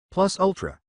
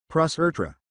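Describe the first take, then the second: First: Higher, lightly British "Plus ultra"; British accent. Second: "Plus ultra" in a mock Japanese accent, R for L. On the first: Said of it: "sounded British enough to make a proper cup". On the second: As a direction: say "Plus ultra" with both L sounds as R. Switches to mangled English accent. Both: A narrator's reading.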